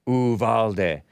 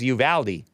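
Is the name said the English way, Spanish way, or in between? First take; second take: Spanish; English. First: The name is said with Spanish sounds. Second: The name is said with English sounds. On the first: This form is closer to the original language. "closer to the Spanish pronunciation" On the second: This is the form most locals accept. "the anglicized pronunciation commonly accepted by locals"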